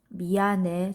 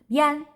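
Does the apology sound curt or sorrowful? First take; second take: sorrowful; curt. First: It is said softly, sounding sad and sorry. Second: It is said curtly, without sounding sorry. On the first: The apology feels sincere. The speaker calls it right. "조금 슬픈 표정으로" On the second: The apology does not feel sincere. The speaker calls it wrong. "이렇게 말하면 미안한 마음이 잘 안 담아서 안 느껴져요"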